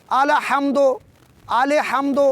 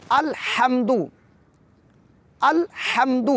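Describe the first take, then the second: First: الحمد said as "alahamd" with an extra vowel after ال; wrong pronunciation. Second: الحمد with a silent ل, "al-hamd", no added vowel; correct pronunciation. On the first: Teacher showing students the wrong way to say الحمد. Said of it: "اگر کوئی یوں پڑھے". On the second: Teacher giving the correct version after the mistake. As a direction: say الحمد cleanly with ل kept still. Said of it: "ساکن کو متحرک کر کے پڑھے". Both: Shown as a demonstration.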